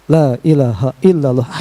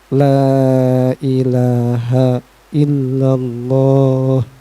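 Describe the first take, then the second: First: It is said pushily and hurriedly, with pressure. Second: It is said softly and slowly, without pressure. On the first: The dying person is being forced to say it. The speaker calls it wrong. "Ulah kieu" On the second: The dying person is given time to follow. The speaker calls it right. "dengan sangat lemah lembut, tidak memaksanya, dengan perlahan"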